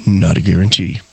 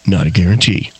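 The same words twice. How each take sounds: First: Low, smooth sultry read; sexy voice. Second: Low, smooth disclaimer voice; sexy ad voice. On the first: Retold or imitated. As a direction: purr it like a late-night ad. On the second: Pretend. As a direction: purr the fine print. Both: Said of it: "That's Jim Jesus' sexy voice going".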